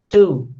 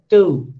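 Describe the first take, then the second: The two takes are said the same way.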